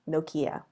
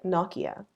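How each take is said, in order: First: It is said with an American pronunciation. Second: It is said with a British pronunciation.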